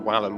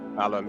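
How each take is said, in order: First: The word begins with a W sound. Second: The word begins with a V sound. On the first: "if you read it, it says Wallum, which is wall" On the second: "with the V instead of the W sound"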